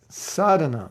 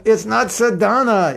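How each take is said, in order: First: "sadhana" as SAA-dha-na, first syllable long; correct "sadhana". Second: "sadhana" as sa-DAA-na in a high correcting tone; wrong "sadhana". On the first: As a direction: set "sadhana" right, leaning on the first a. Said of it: "which has a long A in the beginning". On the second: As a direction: mimic "sadhana" with a long middle syllable. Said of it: "second syllable of words is commonly longer". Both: Retold or imitated.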